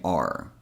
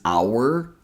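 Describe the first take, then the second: First: It is the reduced form, sounding like 'are'. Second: It is the full form, sounding like 'hour'. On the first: The word is not being emphasized. "I'm going to say are" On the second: The word is being emphasized. "The first way is our, which is less common"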